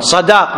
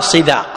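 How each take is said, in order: First: The first syllable has the vowel a. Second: The first syllable has a vowel other than a. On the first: The speaker calls it right. "بفتح الصاد" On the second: The speaker calls it wrong. "ولا تقول صداق"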